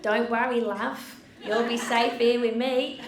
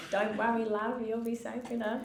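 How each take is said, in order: First: Put-on loud, higher Australian accent. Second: Put-on lighter Australian accent, a touch louder. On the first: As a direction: belt out a broad Aussie reassurance. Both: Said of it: "I've gotta do your accent".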